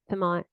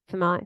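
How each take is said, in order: Both takes have the same delivery.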